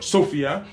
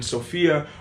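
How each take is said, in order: First: The stress is on the first syllable. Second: The stress is on the second syllable.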